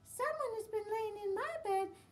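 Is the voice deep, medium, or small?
small. It is said in a little wee voice.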